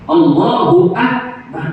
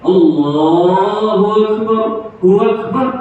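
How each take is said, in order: First: "Allahu Akbar" slow, with a glottal break before "Akbar"; distinct hamzah. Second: "Allahu Akbar" run together, the hamzah of "Akbar" softened into a glide; wrong, softened hamzah. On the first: Teacher corrects the eased reading, "Allahu Akbar" with a distinct hamzah. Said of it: "tu jangan di-, dipermudah". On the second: Teacher demonstrates a mistake, "Allahu Akbar" with hamzah glided over. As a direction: slur "Hu Akbar" into one "huwakbar". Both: Shown as a demonstration.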